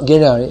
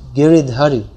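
First: The name is said without the 'dh' syllable. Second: The name is said with the 'dh' syllable. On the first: The speaker calls it wrong. "actually it's not Giriyai" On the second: The speaker calls it right. "it's Giridhari"

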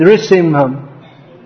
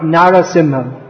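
First: The word begins with the short syllable nri. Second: The word begins with the two syllables nara. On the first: The speaker calls it right. "So we should sing Nrishimham" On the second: The speaker calls it wrong. "not Narasimham"

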